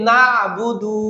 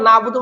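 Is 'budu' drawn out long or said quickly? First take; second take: long; quick. First: The vowel in 'budu' is stretched out long. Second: 'Budu' is said quickly with short vowels. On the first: The speaker calls it wrong. "একটা টান দিই" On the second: The speaker calls it right. "বুদু তাড়াতাড়ি বলতে হবে"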